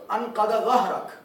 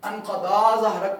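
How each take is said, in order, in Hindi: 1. पहले शब्द का आखिरी स्वर छोटा है। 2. पहले शब्द का आखिरी स्वर लंबा है।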